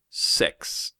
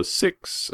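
First: "sex" drawn out slowly as a mock New Zealand "six". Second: "six" said slowly with a short i, as in sit; Australian "six". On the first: Australian mocking how New Zealanders say six, slow exaggerated vowel. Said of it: "sounds like they're saying sex". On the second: Australian guest showing Americans how six is said at home, slow demonstration. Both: Shown as a demonstration.

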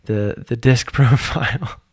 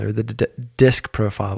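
First: Slower, laughing retake of disc profile; laughing correction. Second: Stumbling on the word disc; stuttering over disc. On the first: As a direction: laugh while fixing the slip. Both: Real, not acted. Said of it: "Whoops, stuttered a little bit there".

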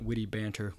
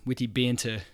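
First: Said in the usual way. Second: Light imitation of a New Zealand accent. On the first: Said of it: "as they call it". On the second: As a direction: say "witty banter" with dropped r, mock New Zealand style. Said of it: "They have New Zealand accents".

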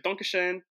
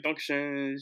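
First: German thanks, lifted higher in pitch; attempted German accent. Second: German thanks at ordinary pitch; attempted German accent. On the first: Passenger thanking flight attendant, attempted German accent. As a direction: offer an amateur German thank-you, pitched up. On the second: Passenger leaving plane, plainer German-accented thanks. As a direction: repeat the German thank-you, less lifted. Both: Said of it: "that probably wasn't my best German tone".

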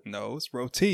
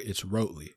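First: Roti with a long o; roti, ROH-tee; correct pronunciation. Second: Roti said as rotely; rotely instead of roti; wrong pronunciation. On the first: Shown as a demonstration. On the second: Pretend. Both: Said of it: "that's not how you say it".

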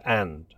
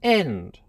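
First: Said in the usual way. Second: "end" said with a short e, like end; clipped royal "end". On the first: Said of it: "for "and". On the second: Shown as a demonstration. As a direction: swap the vowel of "and" to "end". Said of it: "and "end" for "and".

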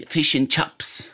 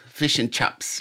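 First: New Zealand accent, fish as fush, chips as chops. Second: Lighter New Zealand accent repeat, chips as chops. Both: Shown as a demonstration. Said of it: "like they say".

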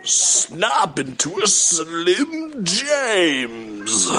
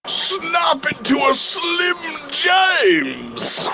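First: Slow, drawn-out British wrestler growl; British Randy Savage. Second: Much higher, slow shouted wrestler promo; British Randy Savage shout. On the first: Comic doing a British Randy Savage catchphrase slowly. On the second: Comic shouting a British Randy Savage catchphrase. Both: Retold or imitated. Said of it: "my impression of a British Randy Savage".

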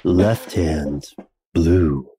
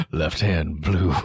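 First: Low, slow seductive radio voice; sultry narrator. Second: Sultry narrator. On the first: Pretend. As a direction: purr it like a late-night DJ. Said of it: "say it in a sexier voice". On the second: Retold or imitated. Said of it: "when Ben went".

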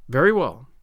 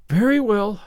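First: Low, clipped reply with a falling end; short and businesslike, hiding relief; stern guardian accepting an apology, crisp; crisp and curt. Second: Put-on resigned girl. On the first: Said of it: "Marilla's crispness". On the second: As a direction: give in with a sigh, a touch louder. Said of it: "said Anne resignedly". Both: A narrator's reading.

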